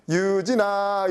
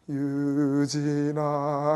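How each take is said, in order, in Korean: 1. 이름을 밝고 장난스러운 말투로 부릅니다. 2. 이름을 낮고 위협적인 말투로 부릅니다. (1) "이 음조에 의해서 어 놀자라는 그런 그런 이제 그 내부 표상이 떠오르고" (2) "살짝 무서울 것 같은 그런 느낌이 드는 거예요"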